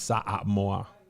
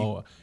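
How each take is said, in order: First: Every vowel is sounded out separately. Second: The vowels run together, not each sounded. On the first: The speaker calls it right. "you pronounce every vowel" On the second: The speaker calls it wrong. "So it's not"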